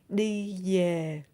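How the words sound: Southern accent, the v sounds like y. "is Southern accent"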